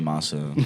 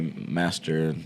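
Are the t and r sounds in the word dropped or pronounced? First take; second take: dropped; pronounced. First: The t and r sounds are dropped. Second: The t and r sounds are fully pronounced. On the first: This is how the other group says it. "Y'all say masa" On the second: This is how one group says it. "they say master"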